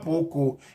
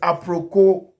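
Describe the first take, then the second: First: The name is said without an r sound. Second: The name is said with an r sound. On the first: The speaker calls it wrong. "it's not Apoko" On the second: The speaker calls it right. "It is Aproko"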